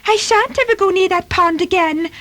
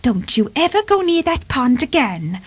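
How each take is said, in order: First: High-pitched, indignant kitten; much higher, affronted retort; offended. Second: Higher-pitched motherly warning; admonishing mother cat; cautioning. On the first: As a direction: protest in a huffy little voice. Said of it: "said Timmy in an offended tone". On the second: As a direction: caution a naughty kitten firmly. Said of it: "she cautioned". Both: Acted.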